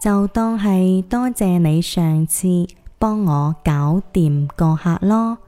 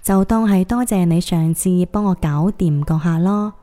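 First: It is said a little slower. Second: It is said at normal speed.

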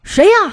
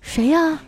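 First: It is shouted angrily. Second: It is asked at normal loudness.

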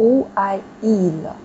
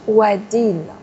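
First: The final t is dropped, with no linking. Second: The final t is pronounced, linked to the vowel. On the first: "如果我们不连在读的效果是这样的" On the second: "因为连了才会把这个t 给连出来的"

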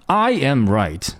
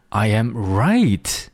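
First: The first word carries the strongest stress. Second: The last word carries the strongest stress. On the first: Only I am right, not anyone else. "这种感觉强调的是I" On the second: My suspicion turned out to be correct. "强调的是第三个单词"

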